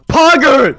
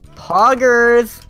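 First: It is said louder. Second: It is said at normal loudness.

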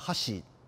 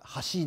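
First: It has the Kansai pitch accent pattern. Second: It has the Tokyo pitch accent pattern. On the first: "あれは箸ね" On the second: "東京では橋ですけど"

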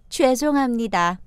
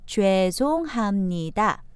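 First: The phrase is said at a natural, normal speed. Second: The phrase is said slowly and carefully.

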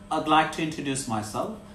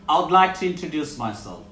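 First: The words 'I would' are contracted to 'I'd'. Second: The words 'I would' are said in full.

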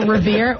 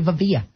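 First: The middle consonant is a plain R sound. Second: The middle consonant is replaced by a V sound.

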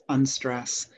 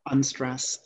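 The two takes are said the same way.

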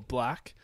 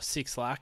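First: The name is said as one syllable, 'Black'. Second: The name is said as 'Six Lack'. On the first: This is how the name is really pronounced. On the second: This is how the name looks when read from its spelling.

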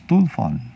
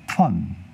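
First: The word is squeezed into two syllables. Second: The word is shortened to fewer than two syllables. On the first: This is how the word sounded in Portugal decades ago. "Lá era falada com duas sílabas" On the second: This is how the word sounds in Portugal more recently. "eles tinham diminuído de novo essa palavra"

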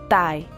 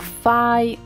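First: It begins with a t sound. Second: It begins with an f sound. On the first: "ou tai" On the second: "ou fai"

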